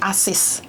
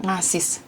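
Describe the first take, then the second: First: Asis said cleanly, with no ng at the start; corrected asis. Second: Ngasis said softly as the wrong word, with the ng sound at the start; mispronounced ngasis. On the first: Host correcting the word for listeners, saying a clean Asis. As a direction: drop the ng and just say Asis. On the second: Host quizzing caller on the word, quietly saying Ngasis. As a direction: repeat Ngasis quietly, keeping the ng at the front. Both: Shown as a demonstration. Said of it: "apa bahasa Indonesia nih".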